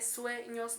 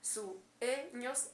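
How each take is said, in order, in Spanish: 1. La palabra se dice en dos sílabas. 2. La palabra se dice en tres sílabas. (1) "dos sílabas" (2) "serían tres"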